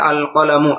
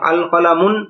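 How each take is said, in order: First: The word ends in a plain vowel, no n. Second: The word ends with an added n sound. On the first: The speaker calls it right. "এটার উচ্চারণ হবে আল কলামু" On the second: The speaker calls it wrong. "সেই শব্দের শেষে তানবিন পড়া ভুল"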